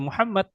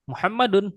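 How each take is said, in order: First: The final case ending is dropped. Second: The final case ending is pronounced. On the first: The speaker calls it wrong. "kita jangan baca Muhammad" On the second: The speaker calls it right. "sampai harokat akhirnya dibaca juga"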